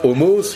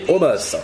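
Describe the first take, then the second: First: The last vowel sounds like O. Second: The last vowel sounds like A. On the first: The speaker calls it wrong. "Ce n'est pas Omos" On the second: The speaker calls it right. "le dernier O de son prénom se prononce comme un A"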